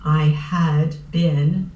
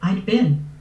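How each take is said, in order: First: The words are said in full as 'I had been'. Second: The words are shortened to 'I'd been'. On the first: "I very rarely will say" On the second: "I would say"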